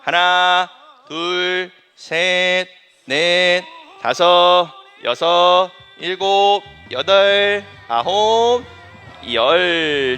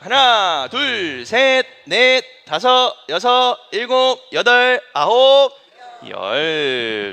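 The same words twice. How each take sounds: First: The counting is at a medium pace. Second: The counting is fast.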